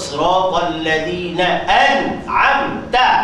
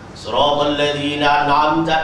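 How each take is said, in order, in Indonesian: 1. Hamzah sebelum 'an'amta' jelas tetap dibaca. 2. Hamzah dihilangkan, kata-katanya disambung. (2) "Bila baca laju"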